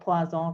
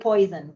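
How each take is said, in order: First: It is said with a French-style pronunciation. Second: It sounds like the English word 'poison'. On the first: The speaker calls it right. "I think it's supposed to be called Poisson" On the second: The speaker calls it wrong. "that's definitely not how you read that"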